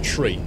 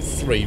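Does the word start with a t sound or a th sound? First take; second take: t sound; th sound. First: The word starts with a plain t sound. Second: The word starts with a th sound. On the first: This is the official radio pronunciation. "you just drop the H and say tree" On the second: This is how native English speakers usually say it. "people who can natively speak English tend to say three"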